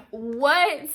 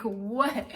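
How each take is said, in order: First: A much higher, far louder disbelieving cry; outraged shout of disbelief; exploding what. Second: A louder, baffled first what; stunned question, not yet exploding; puzzled what. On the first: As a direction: let the second what burst out. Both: Retold or imitated. Host says it was a misunderstanding.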